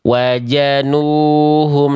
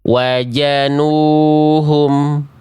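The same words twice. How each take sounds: First: The second consonant is a 'j' sound. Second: The same.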